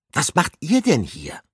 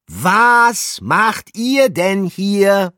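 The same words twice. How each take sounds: First: Calling out. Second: High, slow, loud drawn-out shout; louder shout. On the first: Calling through window. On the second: Pikandu repeats his question to the rats, slow loud shout. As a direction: yell it so they hear through the glass. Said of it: "wiederholte seine Frage etwas lauter". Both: A narrator's reading.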